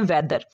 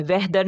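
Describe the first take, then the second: First: "वेदर" with no h before द; silent h. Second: "वेदर" with an h breathed before द; wrong pronunciation. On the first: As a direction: drop the h from "वेदर". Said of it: "इसको पढ़ते हैं". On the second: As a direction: sound the h in "वेदर", weh-dar. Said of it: "नहीं पढ़ते". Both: Shown as a demonstration.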